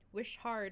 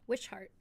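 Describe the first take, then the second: First: It is said as two words, 'wish hard'. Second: It is said as one name, ending in 'shart'.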